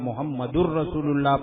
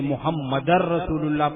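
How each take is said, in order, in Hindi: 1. Muhammad में 'r' से पहले 'u' स्वर है। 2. Muhammad में 'r' से पहले 'a' स्वर है। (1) "पेश पढ़ूं" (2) "जबर पढ़ूं"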